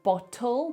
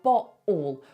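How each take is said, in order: First: The middle T is clearly pronounced. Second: The middle T is a glottal stop. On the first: "Instead of bottle" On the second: "they say bottle. What they're doing there is called a glottal stop"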